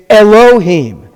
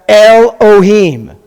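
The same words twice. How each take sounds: First: Elohim as eh-lo-HEEM, slowly, the L starting the second syllable; correct pronunciation. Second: Elohim broken wrongly as EL-oh-heem, slowly; mispronunciation. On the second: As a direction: say Elohim with a closed first syllable EL, then a separate oh-heem. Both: Shown as a demonstration. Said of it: "It's not pronounced Elohim".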